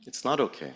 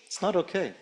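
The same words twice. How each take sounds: First: NOT leaned on, falling; "It's not okay" with weight on "not"; stress on not. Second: "not" lifted much higher, softer, falling; pitched-up not. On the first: Speaker to the audience, pressing on "not". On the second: Speaker to the audience, "not" lifted high and soft. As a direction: raise "not" high and let "It's not okay" fall away softly. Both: Real, not acted. Speaker repeating her own words.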